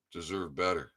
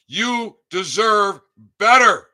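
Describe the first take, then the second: First: Soft, low-key "deserve better."; quiet. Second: High, loud and slow yell; loud shout. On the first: Echoing his shout to brothers and sisters, much softer. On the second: Telling listeners they deserve better, slow high shout. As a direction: belt out "You deserve better." slowly at the top of the voice. Shouted, then repeated quietly. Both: Real, not acted.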